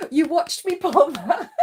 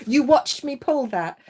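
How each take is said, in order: First: High, loud and laughing; delighted, laughing disbelief; laughing exclamation. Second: Excited. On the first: Repeated with laughter. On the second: Amazed at the card. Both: Real, not acted.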